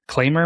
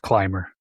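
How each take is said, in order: First: The first vowel sounds like 'ay'. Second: The first vowel sounds like 'eye'. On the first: "Claimer, maybe?" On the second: "I'm pretty sure it's climber"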